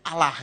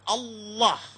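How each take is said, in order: First: The word is said lightly, Indonesian style. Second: The word is said heavily, Arabic style.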